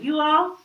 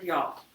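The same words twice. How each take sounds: First: Said in the usual way. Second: Southern "y'all", run into one syllable; Southern accent. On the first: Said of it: "instead of saying". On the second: A narrator's reading. Worried Mama says "y'all", Southern accent. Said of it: "talking Southern style".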